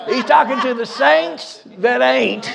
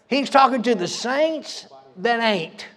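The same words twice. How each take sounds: First: Repeating the line slowly through a laugh. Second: Said in the usual way. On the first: Real, not acted. Preacher repeating his joke to the church, laughing. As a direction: chuckle as you say it again.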